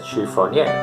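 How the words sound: It is said with a French accent. "Si lo va a decir en francés, por supuesto que lo dice de otra manera"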